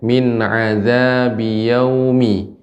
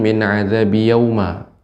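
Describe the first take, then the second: First: The word ends with an 'i' vowel. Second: The word ends with an 'a' vowel. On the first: The speaker calls it right. "Perhatikan Nek" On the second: The speaker calls it wrong.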